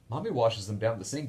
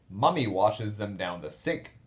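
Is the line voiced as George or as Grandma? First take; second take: George; Grandma. First: It is read in George's voice. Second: It is read in Grandma's voice.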